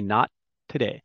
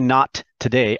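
First: The T at the end of 'not' is held silent. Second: The T at the end of 'not' is fully released. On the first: The speaker calls it right. "I say not today. I make the shape for the T, but I don't actually say it" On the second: The speaker calls it wrong. "I don't say not today"

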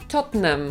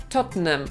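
Both takes have the same delivery.

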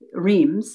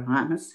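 First: The name is pronounced the English way. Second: The name is pronounced the French way.

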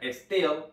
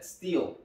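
First: It is said with Spanish-like sounds. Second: It is said with English sounds. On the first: The speaker calls it wrong. "no se pronuncia steel" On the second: The speaker calls it right. "se pronuncia steel"

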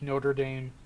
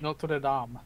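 First: It is said with an American English pronunciation. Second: It is said with a French pronunciation.

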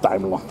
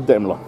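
First: The name is pronounced the German way. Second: The name is pronounced the English way. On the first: The speaker calls it wrong. "Not Daimler, like I'm always saying" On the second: The speaker calls it right. "Actually, it's a Daimler"

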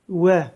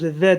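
First: The first sound is made with lips pushed forward. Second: The first sound is made biting the lower lip. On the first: The speaker calls it right. "Dudağımız ileriden gelecek" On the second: The speaker calls it wrong. "Türkçedeki gibi dudağımızı ısırmıyoruz. Ve demiyoruz"

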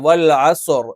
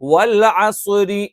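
First: The last word stops on a consonant. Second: The last word ends in a vowel, linking onward. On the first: The reading stops at the end of the verse. "നമ്മൾ നിർത്തി പറയാണ് വൽ അസുർ" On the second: The reading continues into the next verse. "നമ്മൾ ഈ പറഞ്ഞിരിക്കുന്ന നിയമമാണ് വൽ അസുരി എന്ന് പറയാണ്"

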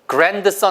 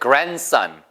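First: The d sound in the middle is pronounced. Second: The d sound in the middle is silent. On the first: The speaker calls it wrong. "grandson 아니고" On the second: The speaker calls it right. "D가 소리 안 납니다"

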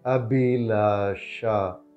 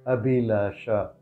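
First: It is said slowly. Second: It is said at normal speed.

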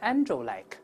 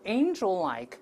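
First: The first vowel is a plain 'an' sound. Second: The first vowel is a diphthong 'ei' before the nasal. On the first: The speaker calls it wrong. "不是angel-like" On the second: The speaker calls it right. "而是angel-like，angel 都是a 加鼻音这个声音"

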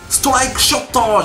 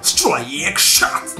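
First: It is said with Japanese katakana-style pronunciation. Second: It is said with English-like pronunciation. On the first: The speaker calls it wrong. "じゃなくて" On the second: The speaker calls it right. "最近発音いいんですよ"

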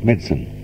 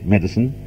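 First: The word is said with two syllables. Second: The word is said with three syllables. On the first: This is the strict standard English way of saying it. "the strictly correct English pronunciation is" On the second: This is the everyday Australian way of saying it. "in Australia, we are quite entitled to say"

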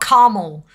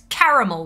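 First: The second A is dropped, giving two syllables. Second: The second A is pronounced, giving three syllables. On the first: The speaker calls it wrong. "not caramel" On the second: The speaker calls it right. "Make sure you pronounce it"

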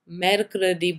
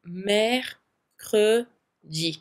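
First: The last syllable is a plain hard dee. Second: The last syllable sounds like a soft jee. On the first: The speaker calls it wrong. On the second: The speaker calls it right.

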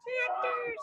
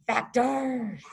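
First: It is said in a squeaky mouse voice. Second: It is said in a low bear voice.

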